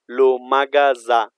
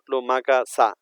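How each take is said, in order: First: The middle consonant is a buzzing Z sound. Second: The middle consonant is a hissing S sound. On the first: The speaker calls it right. "S in between two vowel" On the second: The speaker calls it wrong.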